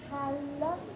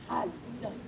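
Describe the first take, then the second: First: It sounds happy. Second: It sounds angry.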